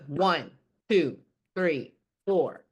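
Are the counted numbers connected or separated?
separated. The numbers are cut apart with gaps. The speaker calls it wrong. "Instead of"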